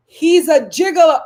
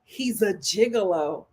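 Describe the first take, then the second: First: Much louder and higher, declaring it; exclaimed gigolo; loud punchline. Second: Said in the usual way. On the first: Shown as a demonstration. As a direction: shout the verdict to the room. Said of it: "repeated louder punchline". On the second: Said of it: "repeated punchline".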